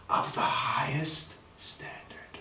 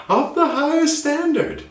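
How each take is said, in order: First: Slow, hushed whisper. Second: Much higher, slow and proud; grand and high. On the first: Teacher whispering the phrase for students. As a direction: breathe it out slowly and reverently. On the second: Teacher proclaiming the phrase high for students. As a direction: announce it slowly like a royal herald. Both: Shown as a demonstration. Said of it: "demo of refined phrase".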